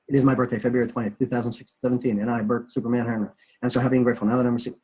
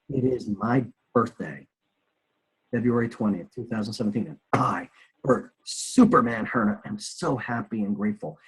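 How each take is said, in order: First: It is said fast and rote. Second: It is said slowly and deliberately.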